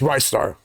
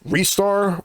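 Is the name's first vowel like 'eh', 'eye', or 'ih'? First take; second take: eye; eh. First: The first syllable has a long 'eye' vowel. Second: The first syllable has a short 'eh' vowel. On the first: The speaker calls it right. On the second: The speaker calls it wrong.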